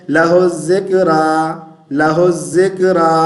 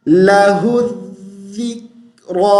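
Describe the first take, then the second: First: लहु ज़िक्रा as "laho-zek-uh-raa"; common misreading. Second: लहु ज़िक्रा as "lahu-dhik-raw", long heavy end; correct recitation. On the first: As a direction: show faulty लहु ज़िक्रा with o, z and light raa. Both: Shown as a demonstration. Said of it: "हम क्या पढ़ते हैं".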